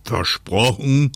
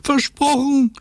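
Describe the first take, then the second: First: Slow, drawn-out checking question; wind's deliberate, slightly raised question; North Wind asking. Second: Very high, squeaky promise; high-pitched little-character call. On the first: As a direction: ask it slowly to make quite sure. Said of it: "fragte der Nordwind, um ganz sicher zu gehen". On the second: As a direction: cry it out in a tiny high voice. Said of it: "rief Lottchen". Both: Acted.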